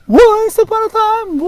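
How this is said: It is said with big, exaggerated emotion.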